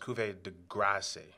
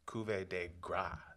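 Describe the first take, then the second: First: The last word ends with an S sound. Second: The last word ends on a vowel, no S. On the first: The speaker calls it wrong. "I always thought it was Cuvée de Grace" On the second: The speaker calls it right. "apparently it's uh, Cuvée de Gras, like just Gras"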